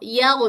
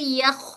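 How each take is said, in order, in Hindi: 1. अंतिम ध्वनि घोष वाली, भनभनाती खरखराहट है। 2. अंतिम ध्वनि साँस वाली, बिना घोष की खरखराहट है। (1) "एयर फ्लो नहीं करेंगे तो वो यग यग में बदल जाएगा" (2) "एयर फ्लो हो रही है।"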